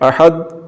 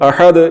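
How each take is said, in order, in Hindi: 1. अंतिम d एक सादे, स्थिर ठहराव के साथ खत्म होता है। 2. अंतिम d में हल्की गूंजती उछाल के साथ खत्म होता है। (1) "अगर कलकला के बगैर ... तो ये गलत है" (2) "ठीक हो गया कलकला के साथ"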